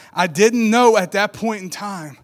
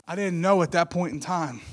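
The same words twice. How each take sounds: First: "I didn't know" slow, KNOW stressed and falling; louder, weighty "I didn't KNOW at that point in time"; emphatic. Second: Said in the usual way. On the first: Real, not acted. Repeats line for emphasis.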